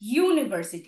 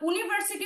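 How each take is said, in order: First: The word begins with a 'y' consonant sound. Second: The word begins with a plain 'oo' vowel sound. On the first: The word takes 'a' before it. The speaker calls it right. "কিন্তু আমরা কি বলি?" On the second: The word would then take 'an' before it. The speaker calls it wrong. "আমরা যদি এরকম ভাবে বলতাম"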